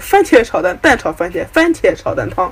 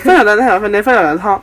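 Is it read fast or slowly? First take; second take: slowly; fast. First: It is read at a slow pace. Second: It is read at a fast pace.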